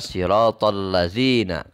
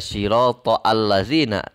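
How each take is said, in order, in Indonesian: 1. Vokal sebelum 'lazina' dihilangkan dan disambung. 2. Vokal sebelum 'lazina' dibaca terpisah. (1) "akan tetapi dibaca" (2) "tidak dibaca"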